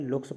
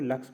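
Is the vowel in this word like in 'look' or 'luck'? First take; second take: look; luck. First: The vowel sounds like the one in 'look'. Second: The vowel sounds like the one in 'luck'. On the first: A child with a reading difficulty reads it this way. The speaker calls it wrong. "वह इसका उच्चारण कुछ इस प्रकार से करता है, लुक्स पढ़ता है।" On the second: This is the usual reading of the word. The speaker calls it right. "तो इसको लक्स पढ़ते हैं ना।"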